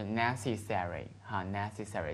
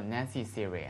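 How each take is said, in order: First: "necessary" American-style, with a full "-sary"; American pronunciation. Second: "necessary" with a weakened "-sary", like "necessiry"; alternative pronunciation. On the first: Teacher corrects to the usual American reading, full-vowel pronunciation. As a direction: end "necessary" on a clear "serry". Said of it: "美国人比较通常的读法". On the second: Teacher shows how some people say it, reduced-vowel pronunciation. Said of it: "有人说". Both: Shown as a demonstration.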